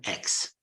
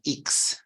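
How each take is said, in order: First: The letter is said the English way. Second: The letter is said the Italian way. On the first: "not X" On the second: "the letter is pronounced in Italian like X"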